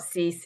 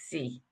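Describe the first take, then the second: First: The word ends with an s sound. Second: The word ends on the vowel, no s. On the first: The speaker calls it wrong. "It's not cease" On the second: The speaker calls it right. "it's C"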